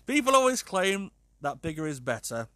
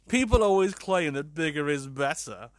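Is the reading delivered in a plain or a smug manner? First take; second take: plain; smug. First: It is read in a plain, ordinary manner. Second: It is read in a smug, self-satisfied manner.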